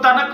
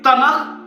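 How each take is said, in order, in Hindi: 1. यह शब्द सख्त k की आवाज़ से खत्म होता है। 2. यह शब्द खरखरी kh की आवाज़ से खत्म होता है। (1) "तनक नहीं" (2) "बल्कि तनख पढ़ा जाता है"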